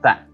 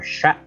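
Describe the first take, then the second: First: It starts with a th sound. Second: It starts with a sh sound. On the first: The speaker calls it right. "tapi ta" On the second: The speaker calls it wrong. "atau sya"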